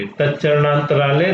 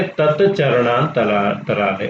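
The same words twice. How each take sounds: First: Said in the usual way. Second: तत्चरणांतरा- said slowly, split at the joint after तत्; teacher breaking up the compound slowly; slow split word. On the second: Shown as a demonstration. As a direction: spell out तत्चरणांतरा- slowly so the join shows.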